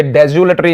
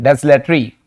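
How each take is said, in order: First: डेजुलेटरी with a z and an added u, "de-zu-le-tree"; wrong pronunciation. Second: डेसलेटरी with a crisp s straight into l, "des-le-tree"; correct pronunciation. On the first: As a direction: say डेजुलेटरी with "zu" in the middle. (डेजुलेटरी में बीच में 'जु' बोलें) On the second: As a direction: say डेसलेटरी with "s-l", no u between. (डेसलेटरी में 'स' के तुरंत बाद 'ले' बोलें) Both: Shown as a demonstration. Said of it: "ये डेजुलेटरी नहीं है".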